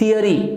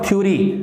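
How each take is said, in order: First: It is said in three syllables, thee-uh-ree. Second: It is said in two syllables, thyo-ree. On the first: The speaker calls it right. "This is the pronunciation of this word थियरी" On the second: The speaker calls it wrong. "Not थ्योरी"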